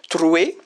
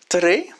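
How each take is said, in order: First: The word ends in a 'we' sound. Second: The word ends in an 'e' sound.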